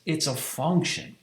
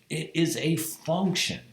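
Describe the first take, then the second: First: Said in the usual way. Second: "is" punched and drawn out; stress on is. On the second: Shown as a demonstration. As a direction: lean on "is": "It is a function".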